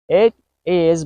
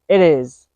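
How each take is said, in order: First: The T is a clear T sound. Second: The T is a quick soft D sound.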